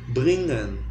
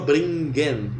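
First: The NG is a single nasal sound. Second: A hard G is heard after the N. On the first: The speaker calls it right. "Como fosse um NH na garganta" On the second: The speaker calls it wrong. "pronunciar o NG como um N com G como um G normal"

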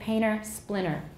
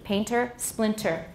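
First: The T sound is dropped in both words. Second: The T sound is clearly pronounced in both words. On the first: This is relaxed, casual speech. "I would say that if I were talking really casually" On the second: This is careful speech, as when reading from a book. "I said it carefully"

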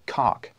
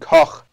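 First: The name ends in a hard k sound. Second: The name ends in a throaty, breathy sound. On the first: The speaker calls it wrong. "Because cock is not right" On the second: The speaker calls it right. "if you want to say it right"

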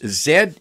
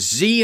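First: The letter is said the Canadian way, zed. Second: The letter is said the American way, zee.

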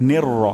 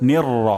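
No difference in how they are said.

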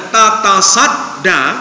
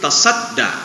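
First: The word begins with two 'ta' syllables. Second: The word begins with one 'ta' syllable. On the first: "Karena susah ngomongnya tatasadda" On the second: "maka dihilangkan satu tak menjadi tasadda"

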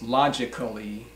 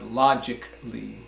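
First: The 'a' before the final 'lly' is pronounced as a full syllable. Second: The 'a' before the final 'lly' is dropped. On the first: The speaker calls it wrong. "It is not pronounced logically" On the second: The speaker calls it right. "but logically"

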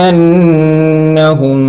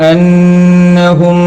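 No difference in how they are said.

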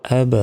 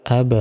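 Both takes have the same delivery.

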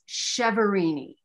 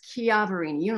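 First: The name has an Americanized pronunciation. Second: The name has an Italian pronunciation, CH like Chianti. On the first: The speaker calls it wrong. "The Americanized pronunciation" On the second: The speaker calls it right. "the Italian pronunciation is Chiaverini, like Chianti"

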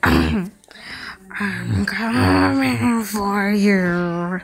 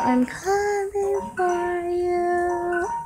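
First: It is said in a monster voice. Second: It is said in a normal voice.

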